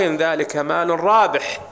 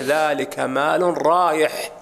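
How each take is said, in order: First: رابح with a clear b, "raa-bih"; rabih with ba. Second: رايح with a y glide, "raa-yih"; rayih with ya. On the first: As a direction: stretch the line slowly onto "RAA-bih" in رابح. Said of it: "وفي رواية في الصحيح". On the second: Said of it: "بالياء". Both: Shown as a demonstration.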